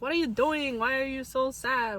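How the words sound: It is said with an imitated Hispanic accent.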